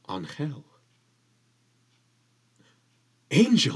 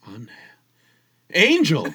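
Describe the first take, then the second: First: There is a long pause between the words. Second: There is a short pause between the words.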